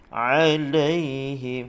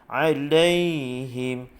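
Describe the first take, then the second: No difference in how they are said.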